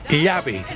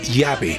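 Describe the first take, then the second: First: The first consonant is a palatal 'ly' sound. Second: The first consonant sounds like a plain 'y'. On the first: This is how the local speakers say it. "Nosotros decimos llave" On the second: This is how the local speakers do not say it. "no decimos llave"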